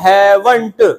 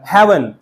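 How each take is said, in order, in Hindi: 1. आख़िरी t की आवाज़ साफ़ बोली जाती है। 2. आख़िरी t की आवाज़ छोड़ दी जाती है। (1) "आपको इसे पूरा हैवंट बोलने की जरूरत भी नहीं" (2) "हैल हैवन बोल देंगे"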